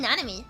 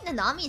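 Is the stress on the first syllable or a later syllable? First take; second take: first syllable; later syllable. First: The stress is on the first syllable. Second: The stress is not on the first syllable. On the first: The speaker calls it right. "emphasis on the first syllable" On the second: The speaker calls it wrong. "sounds weird to me"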